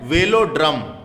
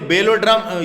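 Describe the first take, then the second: First: The word begins with a 'v' sound. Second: The word begins with a 'b' sound. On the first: The speaker calls it right. "वेलोड्रम बोलते हैं उसको" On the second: The speaker calls it wrong. "छपा गलत है"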